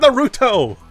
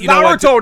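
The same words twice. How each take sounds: First: The name is said with English-style pronunciation. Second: The name is said with Japanese-style pronunciation. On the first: The speaker calls it wrong. "not Naruto" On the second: The speaker calls it right. "It's Naruto"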